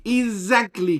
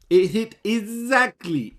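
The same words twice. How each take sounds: First: "exactly" repeated much higher and louder; excited repeat. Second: "exactly" stretched slowly, much higher and louder; excited stress on exactly. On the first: Vlogger repeating to viewers, "exactly" high and loud. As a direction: hammer "exactly" once more. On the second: Vlogger gloating to viewers, stressing "exactly" slowly and loud. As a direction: savour the word "exactly" as the call lands. Gloating over a correct prediction. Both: Real, not acted.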